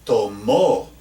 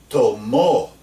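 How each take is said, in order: First: Tomó again, final O stressed; repeated stressed tomó. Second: Tomó with the final O stressed. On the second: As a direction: say tomó, stress the last syllable. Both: Shown as a demonstration. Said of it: "You hear that difference there".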